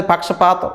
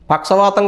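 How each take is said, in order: First: పక్షపాతం with a clear p, paksha-PAATAM; correct word. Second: పక్షవాతం with a v sound, as the woman said it; wrong word quoted. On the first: Preacher correcting the congregation: పక్షపాతం with a plain p. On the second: Preacher mocking a woman's slip: పక్షవాతం said with v. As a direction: say పక్షవాతం, paksha-VAATAM with v, the mistaken word. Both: Shown as a demonstration. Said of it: "పక్షవాతం కాదు".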